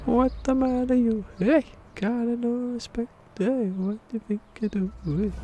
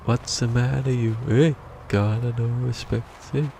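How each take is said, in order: First: Hammed-up squeaky wise guy; squeaky falsetto taunt. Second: A hint of a cheeky wise guy; mock tough-guy taunt. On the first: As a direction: taunt like a tiny cartoon tough guy. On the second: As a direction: needle someone like a little wise guy. Mocking taunt, repeated in voices.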